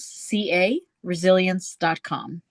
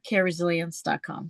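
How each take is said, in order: First: The first part is spelled out letter by letter. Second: The first part is said as one word. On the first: "The website is my initials" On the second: "if you want to pronounce it all together"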